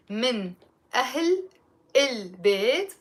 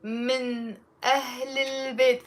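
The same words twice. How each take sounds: First: "من" "أهل" "البيت" each separated by pauses; slow, word by word. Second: "من أهل البيت" run together with liaison, no breaks; linked together. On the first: Teacher slowing the phrase for learners, word by word. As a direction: break it into single words slowly. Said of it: "say it slowly". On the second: Teacher showing the linked pronunciation, smoothly joined. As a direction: join the words smoothly in one flow. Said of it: "pronounced with a liaison". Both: Shown as a demonstration.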